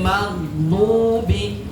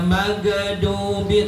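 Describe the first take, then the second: First: The gh sound is held without a vowel. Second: The gh sound bounces with an added vowel. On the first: The speaker calls it right. "nggak bakalan mantul" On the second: The speaker calls it wrong. "Tidak dibaca magadubi"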